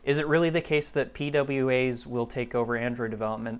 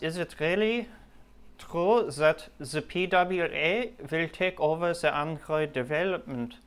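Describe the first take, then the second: First: It is said in the speaker's normal accent. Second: It is said in a put-on German accent.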